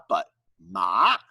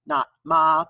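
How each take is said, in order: First: Ma rising like a question; second tone ma. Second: Ma said flat and level; ma with no rise; plain level ma. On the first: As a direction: lift ma upward at the end. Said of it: "with an upward inflection". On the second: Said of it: "with an upward inflection, not ma". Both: Shown as a demonstration.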